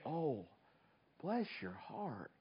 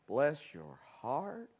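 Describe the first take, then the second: First: It sounds warm and sympathetic. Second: It sounds mocking and condescending.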